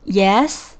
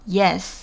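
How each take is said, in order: First: The voice rises at the end, like a question. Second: The voice falls at the end, like an answer.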